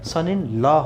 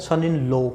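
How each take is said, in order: First: The last word ends in an 'ah' vowel. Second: The last word ends in an 'oh' vowel. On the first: The speaker calls it right. "इसका जो सही प्रचारण होता है" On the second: The speaker calls it wrong. "ये सन इन लो नहीं है"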